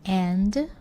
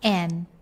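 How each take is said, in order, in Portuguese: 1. O som final do D é pronunciado. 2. O som final do D é omitido. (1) "Ao invés de and" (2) "comendo completamente o som do D. Então fica assim, ó"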